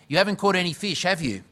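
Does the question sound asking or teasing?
teasing. The question sounds teasing and pointed. The fishermen are being needled about their failure. "Maybe they were a bit cranky about that"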